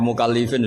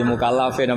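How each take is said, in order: First: "mukallifin" with i before the f; second guess, "mukallifin" with li; unsure reading, i vowel. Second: "mukallafin" with a before the f; first guess, "mukallafin" with la; unsure reading, a vowel. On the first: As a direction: read "mukallifin" with an i in "li". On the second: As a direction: read "mukallafin" with an a in "la". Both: Acted. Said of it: "sudah pusing lagi".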